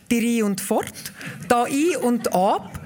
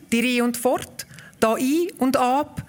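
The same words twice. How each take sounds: The two takes are said the same way.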